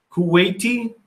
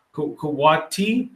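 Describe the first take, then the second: First: "Kuwaiti" said koo-WAY-tee with the "ai" as AY; "Kuwaiti" tried as koo-WAY-tee, rising like a question; corrected Kuwaiti. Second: "Kuwati" said koo-WAH-tee, no "ai" sound; unsure "Kuwati", stressed on WAH and rising; mispronounced Kuwait. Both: Real, not acted. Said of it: "how do you say your place?".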